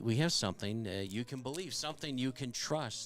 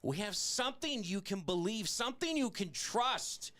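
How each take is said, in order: First: It is said in a listless, low-energy way. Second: It is said in a lively, energetic way. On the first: The speaker calls it wrong. "can you say it with any more lackadaisical feeling there?" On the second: The speaker calls it right. "do you want me to really get into it?"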